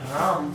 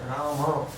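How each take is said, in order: First: The word ends on the m sound. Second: The word ends in an a vowel. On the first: The speaker calls it wrong. "Even Ram is not correct" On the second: The speaker calls it right. "No, it is Rama"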